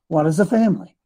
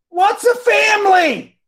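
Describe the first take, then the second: First: It is said calmly, without yelling. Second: It is yelled loudly.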